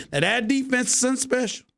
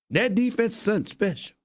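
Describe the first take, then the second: First: Lightly hammed Southern accent; cowboy accent. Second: Said in the usual way. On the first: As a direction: toss off 'that defense is something special' like a Texan fan. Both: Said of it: "my regular cowboy accent".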